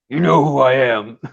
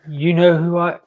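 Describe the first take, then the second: First: It is said in a deep Batman growl. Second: It is said in a soft, small voice.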